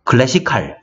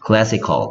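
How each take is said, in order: First: The last syllable has a full, clear vowel. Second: The last syllable has a weak, reduced vowel. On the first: The speaker calls it wrong. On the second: The speaker calls it right.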